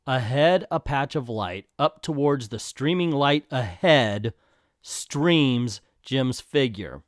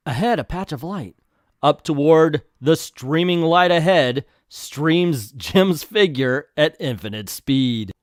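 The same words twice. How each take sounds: First: Deadpan critical reread. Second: Slow, grandiose caption reading; dramatic narration. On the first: Shown as a demonstration. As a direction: pick through the words in disbelief, with pauses. Rereads caption to mock writing. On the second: A narrator's reading. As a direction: declaim it like an epic, stretching the words.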